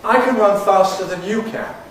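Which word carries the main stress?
you. The main stress falls on the word you. The speaker calls it right.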